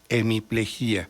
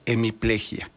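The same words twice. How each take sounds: First: The final i and a form separate syllables. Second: The final i and a form one syllable. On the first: This is how it is said in Mexico. "Lo pronuncio como se pronuncia en México, con yato" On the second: This is the form the academy prescribes. "La academia dice que debe ser"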